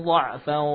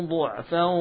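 No difference in how they are said.

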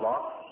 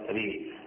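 First: The vowel is a fully open a sound. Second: The vowel leans strongly toward an i sound. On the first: "إما الفتح راء" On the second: "وإما الإمالة ري"

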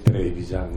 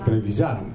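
First: The stress is on the first syllable. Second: The stress is on the last syllable. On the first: The speaker calls it wrong. "è sbagliato dire Trevisan" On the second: The speaker calls it right. "Si dovrebbe dire Trevisan"

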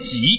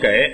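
First: The word is pronounced ji. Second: The word is pronounced gei. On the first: This is the standard correct reading. The speaker calls it right. "但是到人家那儿不念给，他念" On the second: This is the common everyday reading. The speaker calls it wrong. "我们都念给"

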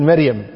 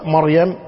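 First: The first syllable lacks the open 'a' vowel. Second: The first syllable has an open 'a' vowel. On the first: This is the everyday local dialect form. The speaker calls it wrong. "احنا بالكويت نقول مريم" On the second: This is the standard classical form. The speaker calls it right. "في اللغة مريم لأن الميم مفتوحة والراء ساكنة"

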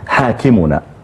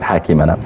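First: The vowel before the final syllable is u. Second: The vowel before the final syllable is a. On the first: The word is the subject of the sentence. The speaker calls it right. "فهي أصلا حاكمنا" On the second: The word is treated as an object. The speaker calls it wrong. "ليست حاكمنا"

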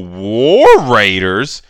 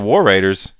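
First: It sounds like a disgusted, put-off reaction. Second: It sounds like a mild, shrugging reaction. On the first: The name sounds actively bad. "you didn't hear it and go" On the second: The name is odd but acceptable. "You just heard it and go"

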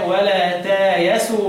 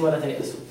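First: A long vowel then a y comes before s. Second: A glottal stop comes before the s sound. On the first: This is the inverted reading of al-Bazzi. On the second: This is the usual reading.

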